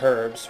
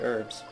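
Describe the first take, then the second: First: The initial H sound is clearly pronounced. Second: The initial H sound is silent. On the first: This is the British pronunciation. "English people say it herbs" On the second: This is the American pronunciation. "we say it herbs"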